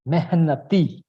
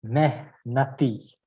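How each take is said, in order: First: "Mehnati" joined up as one word; pronunciation demo. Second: "Mehnati" slowly broken into separate syllables; pronunciation demo. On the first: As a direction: model "Mehnati" firmly, without a gap. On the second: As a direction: model "Mehnati" slowly, with a gap in the middle. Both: Shown as a demonstration. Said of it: "give it a shot".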